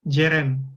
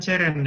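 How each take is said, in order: First: The first consonant is a 'j' sound. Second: The first consonant is a 'ch' sound. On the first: The speaker calls it right. "itu dibacanya jeren" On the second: The speaker calls it wrong. "bukan ceren ya"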